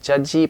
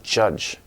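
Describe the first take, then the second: First: An extra vowel follows the final j sound. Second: The word ends cleanly on the j sound. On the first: The speaker calls it wrong. "not judgy" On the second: The speaker calls it right. "but judge, tongue curled up"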